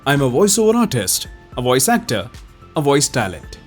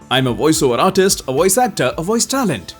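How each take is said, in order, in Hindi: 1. इसे सामान्य, मध्यम गति से पढ़ा गया है। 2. इसे थोड़ी तेज़ गति से पढ़ा गया है। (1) "इसको पहले थोड़ा सा नॉर्मल पेस में पढ़ते हैं।" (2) "अब थोड़ा सा तेज"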